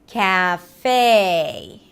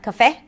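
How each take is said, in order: First: The first syllable is drawn out with a full vowel. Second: The first syllable is short with a reduced vowel. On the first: The speaker calls it right. "but cat in American English" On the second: The speaker calls it wrong. "Not cafe"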